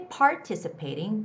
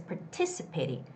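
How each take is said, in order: First: The stress is on the first syllable. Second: The stress is on the second syllable. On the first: The speaker calls it wrong. "Don't say participating because P A R doesn't have the stress" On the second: The speaker calls it right. "There's the stress on the first T I part"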